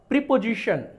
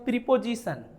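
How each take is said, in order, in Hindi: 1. इसमें sh ध्वनि है। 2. इसमें सामान्य s ध्वनि है। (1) "श श, तालब सा" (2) "अब लोग इसको पढ़ेंगे"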